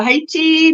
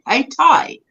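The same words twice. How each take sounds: First: Said in the usual way. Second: "Haiti" said as HAY-tie; local pronunciation. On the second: Shown as a demonstration. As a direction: end "Haiti" on a long "tie". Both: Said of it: "it's pronounced Haiti".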